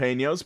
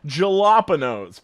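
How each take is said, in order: First: The word begins with an H sound. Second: The word begins with a J sound. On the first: The speaker calls it right. "pronounced with an H sound" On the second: The speaker calls it wrong. "pronounced with a J"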